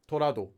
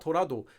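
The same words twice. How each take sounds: First: It is said in a Korean-style speaking voice. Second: It is said in an English-style speaking voice. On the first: The speaker calls it right. "You would say it like torado" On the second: The speaker calls it wrong. "you wouldn't say torado that way"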